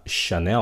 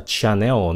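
First: "Chanel" starting with sh, sha-NEL; correct Chanel. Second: "Chanel" with a hard ch as in chat; mispronounced Chanel. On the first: Teacher introduces the French brand, sh sound in "Chanel". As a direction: say "Chanel" with a soft sh. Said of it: "cái âm sh". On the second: Teacher shows learners what to avoid, hard ch in "Chanel". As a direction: say "Chanel" as cha-NEL. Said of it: "không phải là Chanel". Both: Shown as a demonstration.

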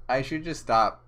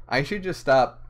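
No difference in how they are said.

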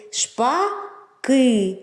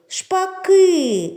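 First: Said in the usual way. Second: Шпаки called out loud and high, stress on ки; calling out. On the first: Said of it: "два склади". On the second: Shown as a demonstration. Teacher calling the starlings with the children, loud Шпаки. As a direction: call Шпаки to the birds, leaning on ки. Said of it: "Покличемо їх".

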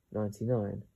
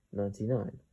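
No difference in how they are said.

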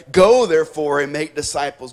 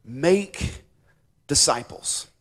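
First: "Go" hit loud, the rest falling away; stress on Go. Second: "make" set apart by pauses, held up before "disciples" falls; stress on make. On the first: Preacher shows how the English verse seems to read, stress on "Go". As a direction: punch "Go" and let "make disciples" drop. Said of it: "The emphasis is not on go". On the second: Preacher corrects which verb carries the verse, deliberate stress on "make". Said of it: "The emphasis is on the verb". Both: Shown as a demonstration.

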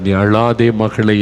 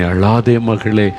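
First: Slow, gentle நீ அழாதே மகளே; slow tender comfort. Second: Slow tender comfort. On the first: Jesus consoling a childless woman, slow and tender. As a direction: soothe her tears, unhurried. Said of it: "என்று ஆண்டவர் சொல்லுகிறார்". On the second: Jesus comforting a grieving daughter, slow and tender. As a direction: ease a grieving daughter slowly. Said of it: "என்று உங்களை பார்த்து சொல்லுகிறார்". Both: Retold or imitated.

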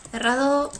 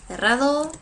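The two takes are said the same way.

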